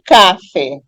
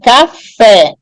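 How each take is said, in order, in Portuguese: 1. A tônica está na primeira sílaba. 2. A tônica está na última sílaba. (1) "A palavra não é café" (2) "a última sílaba é a mais, é a mais tônica"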